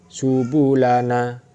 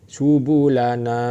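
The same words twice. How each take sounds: No difference in how they are said.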